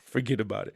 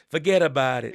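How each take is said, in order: First: It is said in his ordinary voice. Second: It is said in a New York accent.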